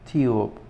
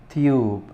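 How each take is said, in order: The two takes are said the same way.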